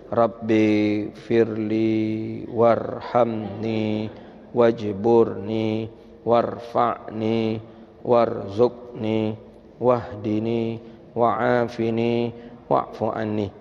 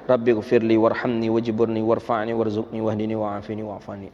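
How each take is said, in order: First: The words are recited slowly, one by one. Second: The words are recited fairly quickly. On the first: The speaker calls it wrong. "pelan-pelan dan satu-satu" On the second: The speaker calls it right. "agak kencang sikit"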